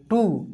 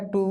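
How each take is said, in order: First: टू as the long ū, pitch falling; टू, demonstrating the long-ū syllable; long u demo. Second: टू as the short u, kept level; टू, demonstrating the short-u syllable; short u demo. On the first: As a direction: say टू with a falling tune. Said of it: "बड़ा ऊ की मात्रा लगा दिए". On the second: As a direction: say टू without a falling tune. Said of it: "छोटा ऊ की मात्रा लगाए". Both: Shown as a demonstration.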